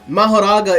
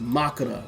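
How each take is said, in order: First: The name is said with four syllables, ma-ho-ra-ga. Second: The name is said with three syllables, ma-ko-ra. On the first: This is the usual English-speaking pronunciation. "Mahoraga is how we pronounce it" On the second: This is how the name is pronounced in Japan. "but in Japan, it is pronounced Makura"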